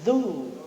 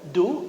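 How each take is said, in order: First: The syllable begins with a soft z-like sound. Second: The syllable begins with a hard d sound. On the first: The speaker calls it right. "Zu. Ya, pakai zal" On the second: The speaker calls it wrong. "du atau zu?"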